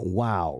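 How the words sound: It sounds flat and disappointed. The speaker is let down. "One is disappointed"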